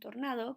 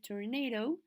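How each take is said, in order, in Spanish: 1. Se pronuncia con sonidos españoles. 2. Se pronuncia con sonidos ingleses. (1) "lo que es un tornado" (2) "que se dice tornado"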